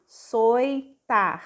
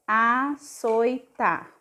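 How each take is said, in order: First: "Açoitar" stretched very slowly, sounding each syllable; drawn out açoitar, slowly; slow syllabified word. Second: "Açoitar" said very slowly as one whole word, asojta; slow blended word. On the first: Teacher sounding out açoitar syllable by syllable, slowly. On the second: Teacher blending açoitar into one word, slowly. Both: Shown as a demonstration. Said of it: "o R vai ficar tar".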